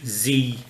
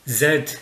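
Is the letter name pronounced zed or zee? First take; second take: zee; zed. First: The letter is pronounced zee, American style. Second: The letter is pronounced zed, British style.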